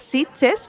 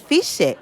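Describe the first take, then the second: First: The word begins with an S sound. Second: The word begins with an F sound. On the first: This is the town's actual name. "descubrir que Fiche era Sitges" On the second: This is how a relative with a regional accent said it. "con su acento de B G, él decía Fiche"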